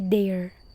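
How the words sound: The word is said with an exaggerated accent. The speaker calls it wrong.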